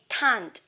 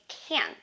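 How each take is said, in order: First: The vowel is long, with a clear final t. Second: The vowel is short, and the t is dropped. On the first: "For British English, you say can't" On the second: "But for American English, you say can"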